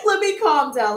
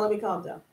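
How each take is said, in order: First: Said through a laugh, still excited; the first take of let me, still bubbling over; still worked up. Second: Much softer, settled; calming down. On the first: Host trying to settle after squealing at viewers, still excited. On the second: Host settling herself down for the viewers, hushed. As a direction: let me drop almost to a hush, actually calming. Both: Real, not acted.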